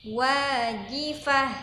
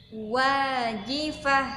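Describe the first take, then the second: Both takes have the same delivery.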